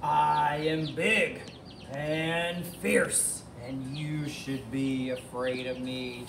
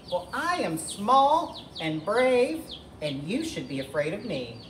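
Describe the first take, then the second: First: Slow, drawn-out monster voice; menacing dinosaur. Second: High little hen voice, dropping at the end; plucky chicken. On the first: Tyrannosaurus tells Edna to be afraid, slow menacing voice. Dinosaur boasts to frighten chicken. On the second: Edna tells Tyrannosaurus to fear her, high plucky voice. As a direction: start high and stretch the brave boast. Small chicken answers the boast. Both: Acted.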